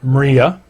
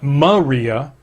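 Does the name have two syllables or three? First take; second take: two; three. First: The name is said with two syllables. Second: The name is said with three syllables. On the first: The speaker calls it right. "but Mria" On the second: The speaker calls it wrong. "Not Maria"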